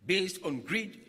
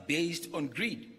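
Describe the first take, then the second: No difference in how they are said.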